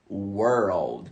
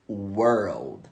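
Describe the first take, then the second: Both takes have the same delivery.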